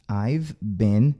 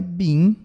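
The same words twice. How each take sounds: First: "been" said short with a clear n, as "ben"; correct been. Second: "been" said as Portuguese "bi", the error to avoid; mock the Brazilian "been" as "bi"; wrong been. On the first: Teacher models the correct "been" for students. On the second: Teacher showing students the wrong "been". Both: Shown as a demonstration. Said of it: "Não é been".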